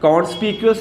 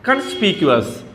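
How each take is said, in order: First: The first syllable has a rounded 'o' vowel. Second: The first syllable has a short 'uh' vowel. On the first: The speaker calls it wrong. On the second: The speaker calls it right.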